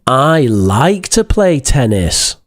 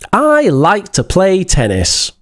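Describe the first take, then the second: First: It is said in a sarcastic tone. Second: It is said in a friendly, warm tone. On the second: "Sounds friendly"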